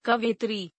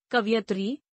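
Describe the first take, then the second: First: Said in the usual way. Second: कवयित्री as "kaviyatri"; mispronounced. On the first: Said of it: "शुद्ध". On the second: Shown as a demonstration. Teacher showing an i error, mispronounced as kaviyatri. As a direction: swap vowels in कवयित्री, i before ya. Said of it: "अशुद्ध".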